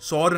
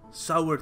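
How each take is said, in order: First: It is said as one syllable, 'saur'. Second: It is said as two syllables, 'sa-wer'. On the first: The speaker calls it wrong. "सौर नहीं थी" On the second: The speaker calls it right. "सावर थी"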